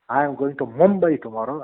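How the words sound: The stress falls on the word Mumbai. The destination is this city, not another one. "when I lay stress on Mumbai"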